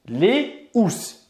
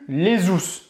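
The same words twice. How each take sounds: First: No z sound links les to housses. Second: A z sound links les to housses. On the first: The speaker calls it right. "On va dire la housse, les housses" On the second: The speaker calls it wrong. "on ne va pas dire ici ... non plus les housses"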